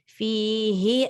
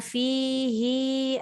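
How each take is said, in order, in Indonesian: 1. Vokal akhir 'hi' dibaca pendek. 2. Vokal akhir 'hi' dibaca panjang. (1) "Dia tak boleh panjang" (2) "jangan fihi a, dia jadi panjang hi tuh"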